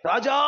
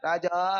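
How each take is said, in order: First: The word is said short, loud and firm. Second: The word is said slowly and drawn out. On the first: The speaker calls it right. "அதை நல்லா போல்டா சொல்லணும்" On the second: The speaker calls it wrong. "அப்படியே இழுத்துக்கணும் போயிட்டு இருக்க கூடாது"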